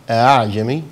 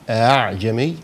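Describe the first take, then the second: The two takes are said the same way.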